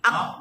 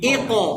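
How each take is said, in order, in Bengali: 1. শেষের q সমতলভাবে শেষ হয়, কোনো বাউন্স ছাড়া। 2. শেষের q বাউন্স দিয়ে ছাড়া হয়। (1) "এটা হয় না" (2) "বাউন্স হবে"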